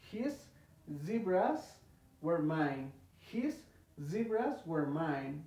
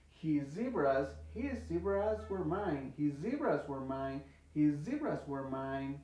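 First: HIS, ZEBRAS, WERE MINE with pauses between, lifting on the first words; separated, not fluid. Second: "his zebras were mine" joined, one Z shared by HIS and ZEBRAS; fluid and linked. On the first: Teacher showing what kills fluency, word by word. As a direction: stop after "his" and after "zebras". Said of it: "no nos va a permitir tener fluidez". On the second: Teacher showing students the fluent way, words joined. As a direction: run HIS straight into ZEBRAS. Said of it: "ya puedes hablar más fluido". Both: Shown as a demonstration.

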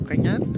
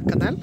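First: "cañal" with ñ, like canyal; mispronounced canal. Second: Said in the usual way. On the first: Real, not acted. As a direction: says "cañal" with a ny sound. ("cañal" pronunciado con ñ) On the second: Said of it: "cañal".

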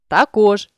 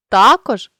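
First: Також with final КОЖ stressed; stress on last syllable. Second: Також with ТА punched loud; stress on first syllable. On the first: Teacher shows a stress variant, також stressed on КОЖ. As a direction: land on КОЖ ending також. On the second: Teacher shows a stress variant, також stressed on ТА. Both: Shown as a demonstration. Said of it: "наголосивши той чи інший склад".

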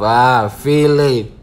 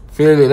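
First: Drawn-out feeling. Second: Feeling snapped out short and louder; punchy feeling. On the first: Savouring feeling slowly while watching the clip. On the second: Echoing his own feeling with a short loud punch. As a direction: hit feeling quick and loud. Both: Shown as a demonstration. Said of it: "Hey, feeling myself".

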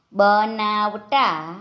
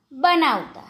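First: બનાવતા very slowly, syllable by syllable; slow word demonstration. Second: Said in the usual way. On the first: Shown as a demonstration. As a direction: stretch out બનાવતા for learners. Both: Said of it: "જોડણી પર ધ્યાન આપજો".

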